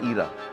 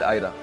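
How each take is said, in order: First: The name begins with an 'ee' sound. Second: The name begins with an 'eye' sound. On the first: This is the usual short form of the name. "उसका short form है ईरा" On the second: This is the pronunciation chosen for the child. "Reena wanted to pronounce it आयरा"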